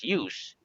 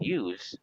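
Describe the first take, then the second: First: The word ends with a hissing S sound. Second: The word ends with a buzzing Z sound. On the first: The word is used as a noun. "with the letter S use is the noun" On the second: The word is used as a verb. "use with the letter Z pronunciation use"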